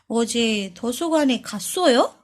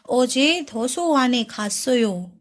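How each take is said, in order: First: The voice rises at the end. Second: The voice does not rise at the end.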